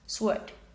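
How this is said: It is said with a British accent. "in British English, sword"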